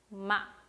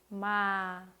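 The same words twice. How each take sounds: First: The syllable is cut off short and sharp. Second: The pitch falls lightly and slowly to the end. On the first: "점을 딱 찍어주시면 돼요" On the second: "아주 가볍게, 천천히, 그리고 끝까지 내려주시면 됩니다"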